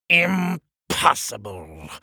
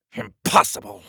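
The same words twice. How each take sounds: First: Higher and drawn out; slow angry disbelief. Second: High, sudden outburst; angry disbelief. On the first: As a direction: stretch each syllable in furious disbelief. King repeats it, glaring at door. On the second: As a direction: snap it out in disbelief. King rejects the wizard's idea. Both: Acted.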